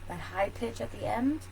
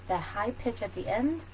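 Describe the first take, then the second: The two takes are said the same way.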